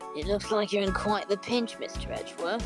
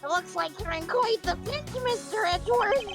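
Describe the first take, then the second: First: It is said in a lower-pitched voice. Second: It is said in a higher-pitched voice.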